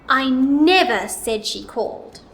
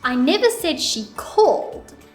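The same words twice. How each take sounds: First: The stress falls on the word never. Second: The stress falls on the word called. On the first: The speaker definitely did not say that she called. "Now let's put it on the word never" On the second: She did not call but maybe texted. "let's put it on the word called"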